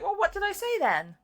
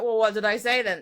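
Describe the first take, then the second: First: It sounds like a sincere, genuinely curious question. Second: It sounds accusing, like trying to catch someone out.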